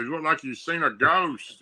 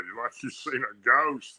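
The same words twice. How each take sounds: First: Lightly voiced old granddad; a hint of a country grandpa. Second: Said in the usual way. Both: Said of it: "That's what he said".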